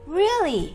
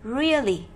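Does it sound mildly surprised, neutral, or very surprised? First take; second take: mildly surprised; neutral. First: The word rises gently, sounding only mildly surprised. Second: The word is said plainly, with no surprise. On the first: The speaker checks if it's true without much surprise. "không cần phải quá nhấn mạnh, tức là không quá ngạc nhiên ấy" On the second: The word is simply being read. "Đó là một từ khi đọc bình thường"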